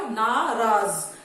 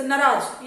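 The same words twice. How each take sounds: First: नाराज slowly as NAA-RAAZ, both vowels long; slow, lower model pronunciation of नाराज with long 'aa'; correct long vowel. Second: नाराज with a short first vowel, nə-RAAJ; mispronounced short vowel. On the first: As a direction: draw out the first 'naa' of नाराज. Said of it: "सही word क्या है बच्चों?". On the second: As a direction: say नाराज wrongly, first 'a' cut to 'uh'. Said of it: "गलत word है". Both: Shown as a demonstration.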